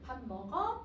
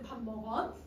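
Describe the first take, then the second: First: The pitch rises sharply at the end. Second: The pitch falls at the end of the question. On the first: "이러면 위로 쭉 올린단 말이야" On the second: "여러분 말끝 내리거든요"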